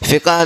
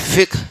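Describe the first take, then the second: First: A short vowel separates the final two consonants. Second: The final two consonants form a tight cluster. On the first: The speaker calls it wrong. "फ़िक़ह लफ्ज़ नहीं" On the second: The speaker calls it right. "बल्कि फ़िक़्ह लफ्ज़ है"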